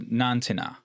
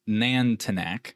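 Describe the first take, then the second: First: The name ends without a k sound. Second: The name ends with a k sound. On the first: The speaker calls it right. "according to how you're supposed to pronounce this" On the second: The speaker calls it wrong. "I'm going to say the wrong way to say this name"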